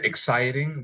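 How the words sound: It is said in an American accent. "we say exciting"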